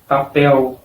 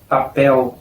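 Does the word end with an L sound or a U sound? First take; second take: U sound; U sound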